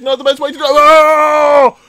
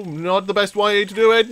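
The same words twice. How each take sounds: First: Higher, rising into a loud scream; panicked repeat. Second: Said in the usual way. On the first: Real, not acted. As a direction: panic mounting until you scream. Repeats as crash comes.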